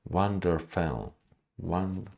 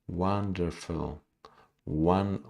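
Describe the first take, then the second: No difference in how they are said.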